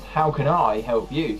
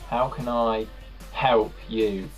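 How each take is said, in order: First: The stress falls on the word I. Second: The stress falls on the word help. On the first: "if you put the emphasis on I" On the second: "if you put the emphasis on help"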